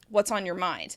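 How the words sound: The voice drops and sounds annoyed. The asker is not really open to hearing the answer. "That drop in intonation with that question is showing that you're not really open to hearing"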